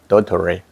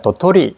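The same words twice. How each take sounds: First: The word is said with an American accent. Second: The word is said with a Korean accent. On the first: "미국 도토리는 도토리" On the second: "도토리 이라면 우리나라 말이고요"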